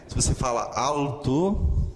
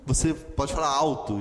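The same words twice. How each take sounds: First: Diga "alto" com o L claro, sem virar u; "alto" com L bem pronunciado. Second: Diga "alto" como "auto", com o L virando u; "alto" à brasileira, L vocalizado; alto com som de U. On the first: (pronúncia grega, L firme em "alto") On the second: (pronúncia brasileira de "alto", som de u) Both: Shown as a demonstration. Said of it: "o som fica do U".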